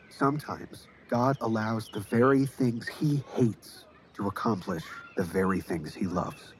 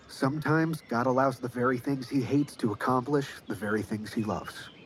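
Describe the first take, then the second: First: It is said more slowly. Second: It is said at normal speed.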